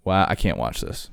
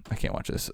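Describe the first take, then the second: First: Said in the usual way. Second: Whispered under the breath. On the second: Real, not acted. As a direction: drop to a hushed whisper, repeating it. Repeats line, then whispers.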